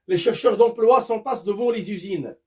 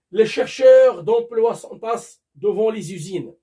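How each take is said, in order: First: Said in the usual way. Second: Announced a bit louder, stress on chercheurs; louder example reading. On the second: Shown as a demonstration. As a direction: read it out loud to the class.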